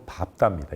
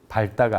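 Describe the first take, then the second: First: The cluster is pronounced with the p sound. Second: The cluster is pronounced with the l sound. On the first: The speaker calls it right. "뒤에 비읍을 발음합니다" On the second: The speaker calls it wrong. "아니고"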